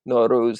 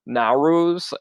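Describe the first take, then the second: First: The name has a native Persian pronunciation. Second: The name has an anglicized American pronunciation. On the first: The speaker calls it right. "Nowruz is the proper way" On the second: The speaker calls it wrong. "I was saying Nowruz, ... revealing of my gringo-ness"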